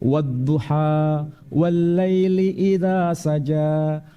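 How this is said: It is recited in the Warsh reading style. "ini bacaan dari Mas [name]"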